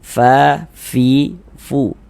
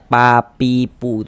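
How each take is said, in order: First: Each syllable starts with an f and flowing breath. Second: Each syllable starts with a closed-lips p sound. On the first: The speaker calls it right. "kita harus ada nafas yang mengalir" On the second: The speaker calls it wrong. "Jangan dibaca pa pi pu itu, jangan ya"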